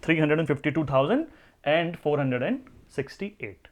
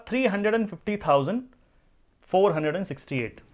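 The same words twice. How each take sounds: First: thousand stressed, steady falling read; whole number in one breath. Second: Fast rising three hundred and fifty thousand, then a pause and a falling second group; split into two groups. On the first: Teacher reads the full number through for students. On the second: Teacher shows students how to read the number in groups. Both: Shown as a demonstration. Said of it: "इतनी संख्या को मैं क्या बोलूंगा?".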